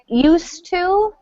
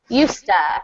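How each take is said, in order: First: Both words are said fully and separately. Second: The words blend quickly into one reduced form.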